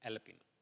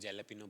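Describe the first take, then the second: First: The word begins with a vowel sound. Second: The word begins with a J sound. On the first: The speaker calls it right. "But जे silent होता है" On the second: The speaker calls it wrong. "Ninety nine percent उसको जेलापिनो बोलते हैं"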